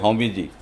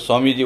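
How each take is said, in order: First: The first word begins with an h sound. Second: The first word begins with an s sound. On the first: This is how the people of Barmer and Jaisalmer say it. "वो बोलेंगे हौमी जी" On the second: This is the usual pronunciation. "आप बोलोगे स्वामी जी"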